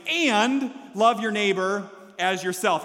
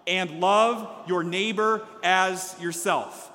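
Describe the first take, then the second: First: "and" stretched out and punched, then a slower finish; heavy, drawn-out stress on "and"; big AND. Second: Said in the usual way. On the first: Shown as a demonstration. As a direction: hit the word "and" hard and hold it. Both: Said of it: "And that is a big".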